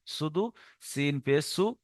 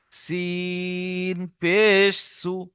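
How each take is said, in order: First: Soft, quick spelling slipped in; mimicking a student's muddled drill; students' wrong method. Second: Very slow, long-held সিন and পেশ; drawn-out spelling, pauses between parts; chopped-up spelling. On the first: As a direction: toss off the spelling without stretching সিন. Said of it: "এটা একটা রং পদ্ধতি". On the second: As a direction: spell it out piece by piece. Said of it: "বানান করার সময় কেটে কেটে". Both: Shown as a demonstration.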